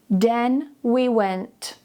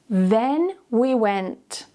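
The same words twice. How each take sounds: Both takes have the same delivery.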